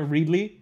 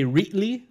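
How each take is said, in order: First: The middle consonant is a clear D sound. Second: The middle consonant is a T sound. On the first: "because we're from here" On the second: "a lot of people say Reetley, like R E E T"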